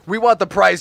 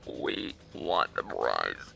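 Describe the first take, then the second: First: It is said in a natural speaking voice. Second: It is said in a robotic put-on voice. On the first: "it's too hard to do that voice" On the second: "in like a robotic voice"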